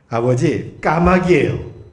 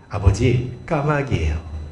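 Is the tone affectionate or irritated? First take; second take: irritated; affectionate. First: The voice sounds annoyed and impatient. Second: The voice sounds warm and gentle. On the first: The son is getting fed up with the repeated question. "짜증 섞인 목소리로" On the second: The son answers his father kindly. "아들이 다정하게 이야기해요"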